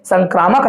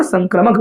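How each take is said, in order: First: संक्रामक with long "aa", san-KRAA-mak; long middle vowel. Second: संक्रमक with short "a", san-kra-mak; short middle vowel. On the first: Teacher shows the form to avoid, संक्रामक with long "kraa". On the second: Teacher corrects students' usage, संक्रमक with short "kra". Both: Shown as a demonstration. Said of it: "संक्रामक ना बोलकर संक्रमक बोलिएगा".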